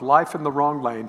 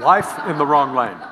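First: It is said at normal conversational pace. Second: It is said noticeably slowly and deliberately.

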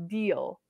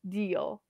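First: The vowels blend into a single syllable. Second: The same.

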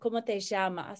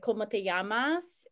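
First: The ll is said like sh, Uruguayan style. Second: The ll is said like a y.

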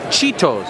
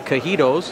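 First: The word begins with a 'ch' sound. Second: The word begins with a 'k' sound. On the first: The speaker calls it right. "CH in the English language is pronounced Ch" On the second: The speaker calls it wrong. "we don't say cajitos"

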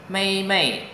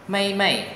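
No difference in how they are said.

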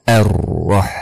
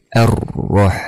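The two takes are said the same way.

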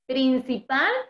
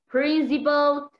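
First: The word is pronounced the Spanish way. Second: The word is pronounced the English way. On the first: "es el español" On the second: "es el inglés"

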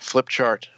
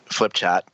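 First: The word is said without a New England accent. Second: The word is said in a New England accent.

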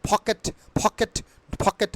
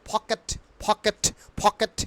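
No difference in how they are said.

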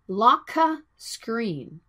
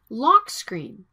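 First: An extra vowel sound follows lock. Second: Lock runs straight into screen with no vowel. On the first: The speaker calls it wrong. "not locka screen" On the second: The speaker calls it right.

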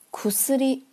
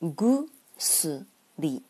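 First: The first consonant is voiceless, a k sound. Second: The first consonant is voiced, a g sound. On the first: The word stands on its own. "苦斯里接在其他名词的后面需要变成浊音" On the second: The word follows another noun in a compound. "也就是浊化"

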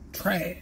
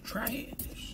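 First: It is said in the speaker's natural voice. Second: It is said in an imitated character voice.

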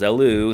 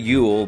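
First: It is said as two syllables, like 'eh-loo'. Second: It is said as one syllable, like 'yule'. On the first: The speaker calls it right. "the Wild Arms wiki says it's pronounced as Elu" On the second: The speaker calls it wrong. "As a kid, I always said Yule, but the W's in the wrong place for that"

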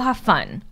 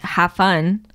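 First: It is said in a warm, sincere tone. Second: It is said in a cold, uncaring tone. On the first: The person really wants the other to enjoy themselves. "sometimes you can actually tell when someone's just like, yeah, go have fun" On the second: The person is upset or doesn't care. "it's in that tone of voice"

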